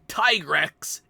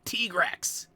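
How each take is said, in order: First: The first vowel sounds like 'tie'. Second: The first vowel sounds like 'tee'. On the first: This is the pronunciation the speaker prefers. "like Ty" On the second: This is the official pronunciation. "you pronounce it like T"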